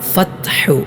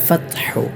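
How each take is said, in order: First: The t is released with a lot of air. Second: The t is released with only a little air. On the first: The speaker calls it wrong. "തായിൽ ധാരാളം കാറ്റ് കൊടുത്തുകൊണ്ട്" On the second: The speaker calls it right. "ഇത്രയേ കാറ്റുണ്ടാവാൻ പാടുള്ളൂ"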